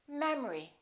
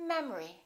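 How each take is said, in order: The two takes are said the same way.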